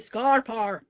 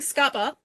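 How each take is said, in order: First: The vowels are followed by r sounds. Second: The vowels are said with no r sound. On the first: The speaker calls it wrong. "they say Scarpar. And they put in all these R's" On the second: The speaker calls it right. "instead of saying Scapa"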